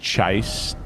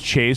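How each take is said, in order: First: The vowel sounds like 'eye' in 'chai'. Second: The vowel sounds like 'ay' in 'day'. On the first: The speaker calls it right. "it's pronounced chise, like a chai" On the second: The speaker calls it wrong. "Not pronounced chase"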